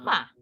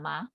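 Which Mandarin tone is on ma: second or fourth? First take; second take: fourth tone; second tone. First: The syllable ma is said with the fourth tone. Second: The syllable ma is said with the second tone. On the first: "ma-nya itu nada keempat" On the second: "nadanya nada kedua"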